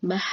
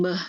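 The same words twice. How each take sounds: First: "bah" with a wide open a vowel; correct bah. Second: "beh" with a flat e vowel, the wrong way. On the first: Teacher gives the correct "bah" after the wrong one, open vowel. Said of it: "Yang benar". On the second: Teacher imitates the student error "beh", flat e vowel. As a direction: say "beh" with an e as the mistake. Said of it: "Jangan beh gitu". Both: Shown as a demonstration.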